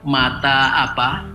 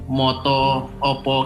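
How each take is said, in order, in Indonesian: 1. Kedua kata berakhir dengan vokal a. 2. Kedua kata berakhir dengan vokal o. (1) "ada yang A A" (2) "konstruksinya O O"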